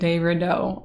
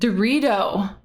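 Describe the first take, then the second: First: The name is said as separate de Rideau. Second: The name is run together, sounding like Dorito. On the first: This is how the speaker has been saying the name. The speaker calls it wrong. "than de Rideau" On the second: This is how other people say the name. The speaker calls it right. "they were saying it Dorito"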